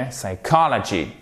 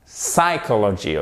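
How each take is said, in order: First: "Psychology" as "sai-KAH-la-gee"; stress on COL. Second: "psychology" as "SAI-ko-lo-gee"; faulty "psychology", first syllable stressed. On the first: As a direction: lean on the second syllable of "Psychology". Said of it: "et non pas". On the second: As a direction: wrongly lean on the PSY of "psychology". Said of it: "accent tonique sur la première syllabe". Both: Shown as a demonstration.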